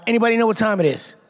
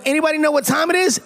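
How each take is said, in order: First: Said in the usual way. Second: High, rousing crowd question; hyped-up call. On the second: Real, not acted. Guest cueing fans for the catchphrase, hyped-up call. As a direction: pitch it up to rouse the room. Repeats cue to hype crowd.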